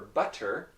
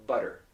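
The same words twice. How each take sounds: First: "butter" with a released T; clear T in butter. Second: "butter" with a quick tapped T; North American flap. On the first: Teacher naming the word, "butter" with crisp T. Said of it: "the pronunciation for butter is normally". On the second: Teacher giving the normal pronunciation, "butter" with a flap. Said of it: "is normally". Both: Shown as a demonstration.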